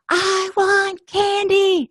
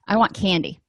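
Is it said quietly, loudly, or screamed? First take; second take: screamed; quiet. First: It is screamed at full volume. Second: It is said at a normal, quiet volume.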